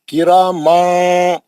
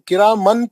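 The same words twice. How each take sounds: First: The n sound is hidden in a nasal hum. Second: The n sound is pronounced fully and clearly. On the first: The speaker calls it right. "छुपाना नून को" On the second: The speaker calls it wrong. "आप किरामन, किरामन पढ़ रहे हैं, नून नहीं पढ़ना है"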